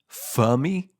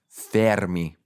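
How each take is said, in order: First: The name is said with a British accent. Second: The name is said with an Italian accent. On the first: "the British pronunciation is Fermi" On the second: "the Italian pronunciation is Fermi"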